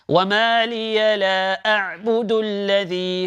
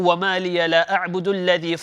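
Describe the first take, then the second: First: It is recited slowly, each letter kept distinct. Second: It is recited quickly, letters running together. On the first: The speaker calls it right. "So take your time" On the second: The speaker calls it wrong. "I'm reading it fast and I'm not concentrating"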